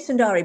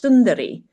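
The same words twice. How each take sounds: First: The middle consonant is a plain English d. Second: The middle consonant is a soft th-like sound. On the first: It follows the English spelling. "you say Sundari because it's the way it's spelt" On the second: It is the original Tamil pronunciation. "it's actually Sundari ... it's S U N T H A R I"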